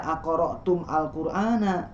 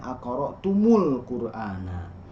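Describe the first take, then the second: First: The m has no vowel before al. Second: The m is followed by a u vowel. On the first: The speaker calls it wrong. "tidak dibaca akoro tum al Qur'ana" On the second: The speaker calls it right. "tapi dibacanya akoro tumul Qur'ana"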